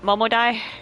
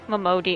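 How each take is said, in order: First: The last syllable sounds like 'die'. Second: The last syllable sounds like 'dee'. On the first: The speaker calls it wrong. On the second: The speaker calls it right.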